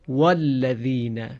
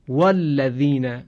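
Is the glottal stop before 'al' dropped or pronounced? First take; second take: dropped; dropped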